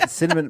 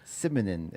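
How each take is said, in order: First: The word is said as standard cinnamon. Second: The consonant sounds are jumbled into simonin.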